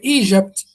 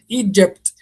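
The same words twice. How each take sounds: First: The middle consonant is a soft 'zh' sound. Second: The middle consonant starts with a slight D. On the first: The speaker calls it wrong. "It's not Egypt" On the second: The speaker calls it right. "the slight D"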